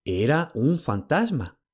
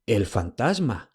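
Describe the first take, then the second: First: Slow, with weight on "un"; dazed realisation; "Era un fantasma" slow, "un" leaned on; stunned. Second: Slow, dazed "fantasma"; "El fantasma" slow, falling, stunned. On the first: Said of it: "fue todo lo que pudo pronunciar". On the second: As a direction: thunderstruck murmur. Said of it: "como si le hubiera caído un rayo". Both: A narrator's reading.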